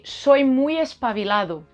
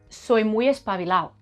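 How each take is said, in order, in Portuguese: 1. O som do d é pronunciado por completo. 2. O som do d é omitido. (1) "pronuncia el D completo" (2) "si yo digo en andaluz... La D se lo come"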